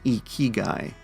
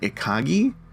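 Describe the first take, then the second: First: The word ends with the syllable 'gai'. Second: The word ends with the syllable 'gi'. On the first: The speaker calls it right. "apparently it's pronounced Ikigai" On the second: The speaker calls it wrong. "My brain wants to pronounce this one Ikagi"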